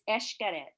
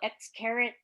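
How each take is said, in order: First: The name begins with an 'esh' sound. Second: The name begins with an 'eks' sound. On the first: The speaker calls it right. "The X is pronounced like an E S H" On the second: The speaker calls it wrong. "So many people go ex carrot"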